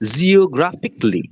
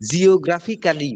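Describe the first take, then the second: First: The ending is reduced to a short 'klee'. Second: The ending is said fully as 'kally'. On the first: The speaker calls it right. "কিন্তু উচ্চারণটা হবে জিওগ্রাফিকলি" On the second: The speaker calls it wrong. "জিওগ্রাফিক্যালি বলে সবাই, ... মানে আমরা Banglish কায়দায় উচ্চারণ করি"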